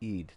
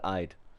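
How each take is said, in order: First: The vowel sounds like 'ee' in eel. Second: The vowel sounds like 'eye'. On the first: The speaker calls it right. "it's pronounced closer to Eid as an eel" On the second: The speaker calls it wrong. "not Eid. I"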